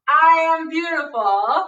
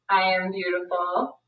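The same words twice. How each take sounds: First: It is said louder and with conviction. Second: It is said at normal, softer volume.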